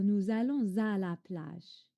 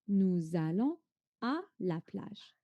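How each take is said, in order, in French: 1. Un son z relie « allons » à « à ». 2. Aucun son z ne relie « allons » à « à ».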